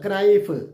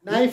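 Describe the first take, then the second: First: A k sound is heard before the n. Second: The word begins directly with the n sound. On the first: The speaker calls it wrong. "എഴുതിയ പോലെ തന്നെ വായിക്കും" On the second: The speaker calls it right. "അങ്ങനെയല്ല"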